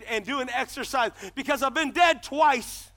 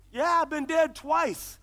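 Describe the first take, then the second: First: Said in the usual way. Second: Slow restated emphasis. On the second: Shown as a demonstration.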